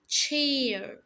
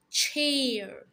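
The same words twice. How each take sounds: The two takes are said the same way.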